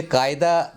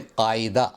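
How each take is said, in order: First: "कायदा" with plain k, run as kaayda; everyday "कायदा", no throaty q; common mispronunciation. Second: "कायदा" as qaa-i-da, throaty q; careful Urdu "कायदा", three syllables; correct pronunciation. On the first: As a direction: say "कायदा" with front k. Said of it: "ना बोलें". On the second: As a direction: say "कायदा" with q and separate i. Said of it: "इसको बोलें". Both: Shown as a demonstration.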